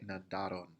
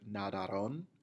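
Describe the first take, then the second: First: The stress is on the middle syllable. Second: The stress is not on the middle syllable. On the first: The speaker calls it right. "putting the emphasis on the second A" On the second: The speaker calls it wrong. "Many times students will pronounce this word nadaron"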